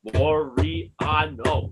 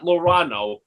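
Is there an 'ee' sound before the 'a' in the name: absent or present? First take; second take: present; absent. First: The name has an 'ee' sound before the 'a'. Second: The name has only an 'a' sound, no 'ee'. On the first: The speaker calls it right. "There's an E. It's E A" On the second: The speaker calls it wrong. "It's not Lorano with the A only"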